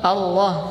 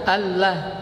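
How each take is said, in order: First: The L sound is heavy and thick. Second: The L sound is light and thin. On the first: The speaker calls it right. "boleh dibaca tebal" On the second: The speaker calls it wrong.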